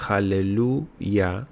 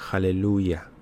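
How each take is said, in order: First: "Aleluya" stretched out very slowly, syllable by syllable; sing-song slow "Aleluya" held to show the word; drawn-out Aleluya. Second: Said in the usual way. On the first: Shown as a demonstration. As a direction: draw out "Aleluya" slowly like a demo. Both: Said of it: "si usted dice, por ejemplo".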